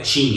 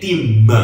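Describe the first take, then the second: First: The word ends cleanly on its final consonant. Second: An extra vowel sound follows the final consonant. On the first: "não é tin" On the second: "é tim, sempre tem esse an"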